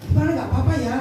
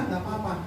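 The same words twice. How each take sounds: First: "nggak apa-apa ya" as a checking question. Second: Low, softer "nggak apa-apa"; subdued answer. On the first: Preacher checks on rider, "nggak apa-apa ya" asked firmly. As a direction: ask "nggak apa-apa ya" at full voice. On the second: Rider replies he is fine, "nggak apa-apa" low and subdued. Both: Retold or imitated.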